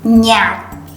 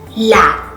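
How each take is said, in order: First: It is said the northern way, starting with nh. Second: It is said the southern way, starting with l.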